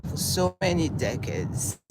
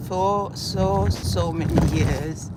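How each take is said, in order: First: Said in the usual way. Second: So hit louder and slower; stress on so. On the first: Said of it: "repeated with more stress next". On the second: Real, not acted. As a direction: lean hard on so in so many years. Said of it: "repeated with more stress".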